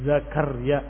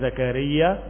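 First: The name ends with a short vowel. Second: The name ends with a long vowel. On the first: "tanpa alif" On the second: "dengan alif bil qasri"

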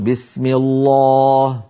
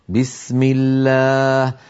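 First: The long a vowel is heavy and darkened. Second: The long a vowel is light and thin. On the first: The speaker calls it wrong. "ولا يصح أن نقول" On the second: The speaker calls it right. "كيف الألف في بسم الله مرققة"

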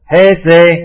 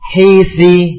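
First: The vowels sound like a slanted e. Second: The vowels sound like a clear i. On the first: The speaker calls it wrong. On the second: The speaker calls it right.

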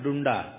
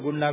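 First: The word begins with a lisped 'd' sound. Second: The word begins with a clear 'g' sound. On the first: "तोतले बोलते थे तो गुंडा को बोले डुंडा" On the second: "तोतले बोलते थे तो गुंडा को"

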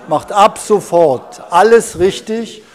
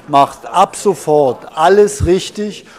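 Both takes have the same delivery.

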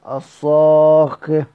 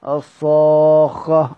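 The two takes are said the same way.

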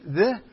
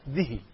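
First: The final h is silent, with no vowel. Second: The final h takes a brief, clipped i vowel. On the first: "بالسكون" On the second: "بالاختلاس الكسرة"

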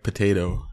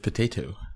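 First: The word is said in an American-style accent. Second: The word is said in a Filipino accent. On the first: The speaker is adjusting so dictation software understands. "a conscious effort to be more" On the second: This is the speaker's natural way of speaking. "instead of potato"

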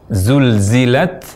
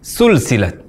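First: The word starts with a hissing z sound. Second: The word starts with an s sound. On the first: The speaker calls it right. "mengucapkan ayat pertama dari surah Az-Zalzalah yang tepat" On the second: The speaker calls it wrong. "mengubah huruf zai menjadi huruf sin"

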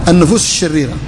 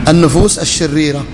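No difference in how they are said.

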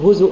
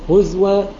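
First: The glottal stop is fully pronounced. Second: The glottal stop is replaced by a w sound. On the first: "مع تحقيق الهمزة" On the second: "ومذهب رسمي بالإبدال"

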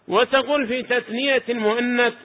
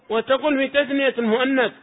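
No difference in how they are said.

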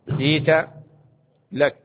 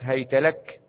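First: The first word begins with a long 'i' vowel. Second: The first word begins with a short 'a' vowel.

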